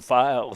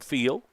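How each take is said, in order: First: The vowel is a long i sound. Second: The vowel is a short i sound. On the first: "Did you go with a long eye on that file?" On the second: "I called him Phil"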